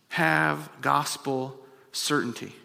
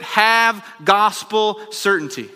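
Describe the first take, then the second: First: Soft, slow and falling, "Have gospel certainty" said gently; hushed conviction on "Have gospel certainty"; quiet. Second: Slow, loud "have gospel certainty" at the peak; preacher's climax on "have gospel certainty"; loud proclamation. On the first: Same phrase later preached loud. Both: Real, not acted.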